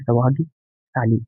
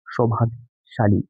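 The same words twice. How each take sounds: First: सौभाग्यशाली with plain s for sh; mispronounced sibilant. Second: सौभाग्यशाली with a clear sh; correct sibilant. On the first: Teacher contrasts the wrong reading, सौभाग्यशाली with an s sound. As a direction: end सौभाग्यशाली in "saali". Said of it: "पहला जो है उसका उच्चारण है". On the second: Teacher gives the correct pronunciation, सौभाग्यशाली with sh. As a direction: end सौभाग्यशाली in "shaali". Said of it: "जबकि सही उच्चारण होगा". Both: Shown as a demonstration.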